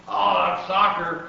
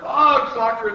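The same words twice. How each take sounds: First: Loud storybook yell, falling at the end; pirate's yell. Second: Louder, higher echoing yell; crew's yell. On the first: Captain kicking the ball, loud yell. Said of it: "kicked the ball and yelled". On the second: Crew echoing captain on deck, loud high yell. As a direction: yell it back as an excited crew. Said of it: "the crew yelled". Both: A narrator's reading.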